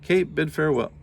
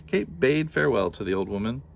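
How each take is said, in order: First: "bid" said as the first try, louder; wrong word bid. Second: "bade" said as the chosen word; corrected to bade. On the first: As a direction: read "bid" before correcting. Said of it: "How about bade?". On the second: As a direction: settle on "bade". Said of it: "We'll say bade". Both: Shown as a demonstration.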